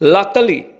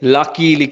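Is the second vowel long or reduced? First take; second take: reduced; long. First: The second vowel is short and reduced. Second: The second vowel is a long 'ee'. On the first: The speaker calls it right. "ඇත්තටම සුද්දා මේක කියවන්නේ ලකලි" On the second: The speaker calls it wrong. "ලකීලි කියලා අපි වැඩිපුරම භාවිතා කරන්නේ"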